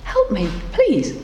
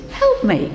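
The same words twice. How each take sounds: First: Gentle plea. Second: Help me leaps far higher, a shrill cry; desperate high plea. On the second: Frog cries out again to the woman, much higher and desperate. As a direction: fling help me up high, begging. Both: A narrator's reading. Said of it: "she heard the voice again".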